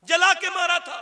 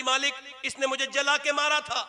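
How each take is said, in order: First: जला के मारा था repeated louder and much higher; anguished louder repeat of जला के मारा था. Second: Said in the usual way. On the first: Acted. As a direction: cry the repeat out harder. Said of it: "repeated louder". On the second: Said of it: "repeated line".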